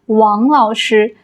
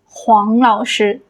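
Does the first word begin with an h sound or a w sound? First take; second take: w sound; h sound. First: The first word begins with a w sound. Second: The first word begins with an h sound. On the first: "instead of saying 王老师" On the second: "maybe they will pronounce it as 黄老师"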